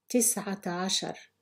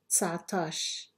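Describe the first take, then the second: First: It is said in the full, long form. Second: It is said in a short, contracted form. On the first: This is the formal standard form. "I will read each number in Fusha Arabic" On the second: This is the everyday dialect form. "then say it in Algerian Arabic"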